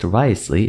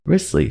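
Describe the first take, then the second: First: The name is read out as it is spelled. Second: The name is said short, sounding like 'Risley'. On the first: The speaker calls it wrong. "It's not actually pronounced Wriothesley" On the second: The speaker calls it right. "it's pronounced Risley"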